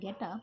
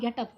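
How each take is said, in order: First: It is said softly and kindly. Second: It is said as a harsh order.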